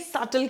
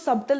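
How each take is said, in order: First: No b sound is heard in the middle. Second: A b sound is heard in the middle. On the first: The speaker calls it right. "सटल कहते हैं, बी silent है" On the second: The speaker calls it wrong. "इसको सबटल नहीं बोलते हैं"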